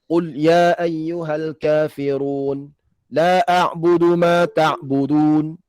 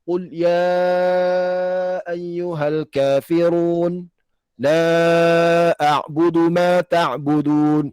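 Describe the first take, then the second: First: The lengthened vowels are held short. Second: The lengthened vowels are held long. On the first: "Kalau tarik jazari, dia baca dua harakat" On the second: "Kalau tarik syatibi"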